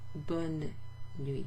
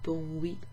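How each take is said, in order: First: The N of the first word is pronounced. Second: The N of the first word is silent. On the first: The speaker calls it right. "You pronounce that N" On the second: The speaker calls it wrong. "Instead of bon nuit"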